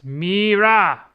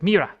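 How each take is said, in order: First: The final vowel is long. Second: The final vowel is short. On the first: The speaker calls it right. "pronounce it long vowel instead of short" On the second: The speaker calls it wrong. "Instead of Mira"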